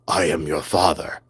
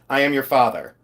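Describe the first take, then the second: First: It is said in a put-on character voice. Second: It is said in a natural speaking voice.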